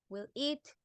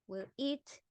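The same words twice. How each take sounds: Both takes have the same delivery.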